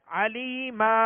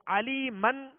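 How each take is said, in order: First: "علی ما" ending on a slow, drawn-out long aa; alif stop. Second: "علی من" closed on a sounded n; tanween ending. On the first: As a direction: stretch the final vowel of "علی ما", no n. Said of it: "ایک الف کی مقدار میں کھینچ کر". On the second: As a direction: end "علی من" with -man, the n pronounced. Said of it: "علی من کہہ کر وقف نہیں کریں گے". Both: Shown as a demonstration.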